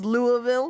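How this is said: It is said in a general, non-regional accent. This is how most people say it. "Most people say it as Louisville"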